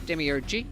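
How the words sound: The word is said with an American pronunciation. "Americans say demiurge"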